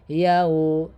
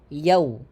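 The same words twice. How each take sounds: First: The syllable is drawn out slowly. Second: The syllable is said quickly. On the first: The speaker calls it wrong. "bukan yau" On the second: The speaker calls it right. "tapi cepat"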